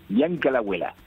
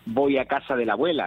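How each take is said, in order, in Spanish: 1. Las primeras palabras se juntan en una sola palabra corta. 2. Cada palabra de la frase se pronuncia completa. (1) "aquí se dice Bianca la abuela, que parece africano" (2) "Aquí no se dice voy a casa de la abuela"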